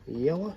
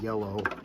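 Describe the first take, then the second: First: It is said with an exaggerated, put-on pronunciation. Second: It is said in a plain New England accent. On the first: It is a joke, not the speaker's usual way. "I don't say it that way" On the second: It is the speaker's natural way of saying it. "I'm actually from New England. I say yellow"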